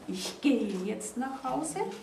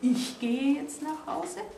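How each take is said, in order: First: The stress is on "gehe". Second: The stress is on "Ich".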